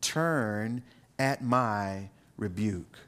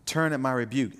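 First: Drawn out, very slow, lower; slow solemn reading. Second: Said in the usual way. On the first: Shown as a demonstration. Preacher reading the verse to the congregation, slow and weighty. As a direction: linger on each word of the verse. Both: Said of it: "notice what she says in verse twenty-three".

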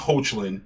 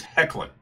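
First: Hoechlin said as HOACH-lin; first syllable of Hoechlin rhymes with coach; mispronounced name. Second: Hoechlin said as HECK-lin; Hoechlin opening like the word heck; correct name pronunciation. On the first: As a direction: say Hoechlin with long O and a CH. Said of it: "not Hoechlin". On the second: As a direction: say Hoechlin with short E and hard K. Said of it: "It is Hoechlin". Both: Shown as a demonstration.

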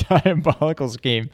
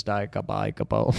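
First: "diabolical" said cleanly as di-a-BOL-i-cal, through a laugh; laughing correction. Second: "diabolical" garbled as "dikabikabul"; stumbled word. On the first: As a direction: get "diabolical" right, laughing. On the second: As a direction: trip over "diabolical", saying "dikabikabul". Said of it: "His diabolical". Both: Real, not acted.

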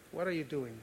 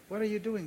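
First: Measured, understated voice of God; lightly voiced divine question; God's voice. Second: Higher, insistent voice of God; lightly acted divine challenge, pitched up; God's voice, insistent. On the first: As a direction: ask it calmly as God would. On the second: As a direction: press the question as God challenging a worrier. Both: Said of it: "God's voice in my head".

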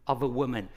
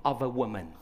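No difference in how they are said.

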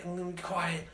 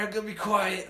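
First: "quiet" said much softer, trailing down; quieter. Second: Said in the usual way. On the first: Retold or imitated. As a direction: drop to a hush on "I'm gonna be quiet".

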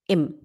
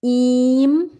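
First: "im" with a short, open i close to "em". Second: "Im" as ihm, a long drawn-out ee, rising. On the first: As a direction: clip "im" very short. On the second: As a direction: stretch "Im" into a long ee. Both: Shown as a demonstration. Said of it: "Agora o im e o em".

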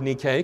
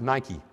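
First: Nike said the Greek way, NEE-kay; Greek pronunciation. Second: Nike said as NY-kee; usual English pronunciation. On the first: Preacher giving congregation the Greek word, Nike as NEE-kay. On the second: Preacher showing the familiar pronunciation, Nike as NY-kee. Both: Shown as a demonstration. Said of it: "we usually pronounce it as Nike".

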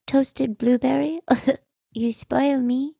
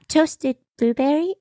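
First: High, soft and cutesy with a giggle; baby voice. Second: High, disbelieving mock echo; incredulous repeat. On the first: Retold or imitated. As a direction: coo it like a spoiled toddler. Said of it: "The baby voice was out of control". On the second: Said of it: "I could not".

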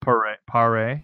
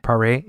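First: Correcting the name, Paré as pa-RAY; Paré with a rising pa-RAY ending. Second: Paré echoed as pa-RAY, stress on the end; trying out Paré, pa-RAY; Paré, copying the French pa-RAY; repeating the correction. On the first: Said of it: "was it Michael Parr?". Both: Shown as a demonstration.

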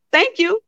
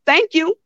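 Both takes have the same delivery.

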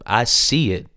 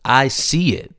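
First: Said in the usual way. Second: I see it pitched higher and pressed, insisting; insistent repeat. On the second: Retold or imitated. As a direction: say I see it again higher, urging him to believe. Mom insists she believes in him.

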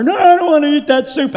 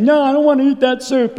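First: High, loud imitation of a balking child; insistent child's refusal. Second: Put-on higher-pitched whiny little girl; child's refusal. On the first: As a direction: mimic a little girl digging in louder. Daughter refuses again, more insistently. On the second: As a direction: mimic a child refusing dinner. Voices daughter refusing soup at supper.

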